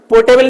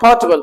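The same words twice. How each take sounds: First: "पोर्टेबल" with a full "te" in the middle; mispronounced portable. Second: "पोर्टेबल" squeezed to "port-bal"; corrected portable. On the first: Teacher shows what is not said, "पोर्टेबल" with full middle "te". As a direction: say "पोर्टेबल" as three full syllables, por-te-bal. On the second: Teacher corrects students, saying "पोर्टेबल" short as "port-bal". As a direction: drop the middle vowel of "पोर्टेबल". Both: Shown as a demonstration. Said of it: "पोर्टेबल नहीं होता है".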